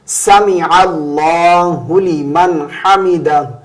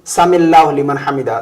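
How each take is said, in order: First: 'Sami'a' and 'allahu' are kept apart. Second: 'Sami'a' and 'allahu' are run together. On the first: The speaker calls it right. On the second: The speaker calls it wrong.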